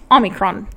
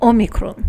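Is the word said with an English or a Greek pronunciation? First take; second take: English; Greek. First: It is said with an English pronunciation. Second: It is said with a Greek pronunciation. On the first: "Or if you want to be a pleb like me" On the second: "If you want to pronounce it with the Greek accent"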